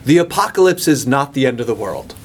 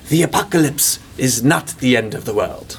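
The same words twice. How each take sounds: First: It is said in the speaker's ordinary accent. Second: It is said in an Irish accent.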